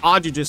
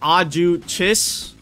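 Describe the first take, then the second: First: The middle consonant is not a ch sound. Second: The middle consonant is a ch sound. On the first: "It's just faster if I say Ajugis" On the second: "like the CH sound"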